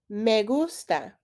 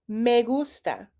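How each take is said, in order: No difference in how they are said.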